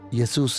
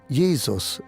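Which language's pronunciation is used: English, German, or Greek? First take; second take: Greek; German. First: The name is pronounced the Greek way. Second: The name is pronounced the German way. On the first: "en griego" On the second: "en alemán"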